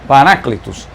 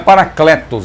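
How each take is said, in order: First: The vowel after the k sounds like 'ee'. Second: The vowel after the k sounds like 'eh'. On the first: The speaker calls it right. "a pronúncia é exatamente esta" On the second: The speaker calls it wrong. "Não é Paracletos"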